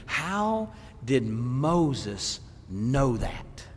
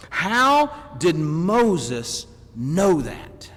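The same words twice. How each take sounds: First: Very slow and low, word by word; drawn-out "How", then space out each word softly; slow wondering question. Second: Very slow, punched word by word; deliberate preacher's question at full voice; slow emphatic question. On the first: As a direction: let the question hang, hushed and deliberate. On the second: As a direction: stretch "How" and drive each word out firmly. Repeats the question with more force. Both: Real, not acted.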